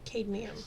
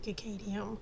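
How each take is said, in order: First: It begins directly with the 'cad' syllable. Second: It begins with an extra cicada-like syllable. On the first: The speaker calls it right. "but it's actually um, uh, ca- uh, cadmium" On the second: The speaker calls it wrong. "I keep wanting to say cicadium"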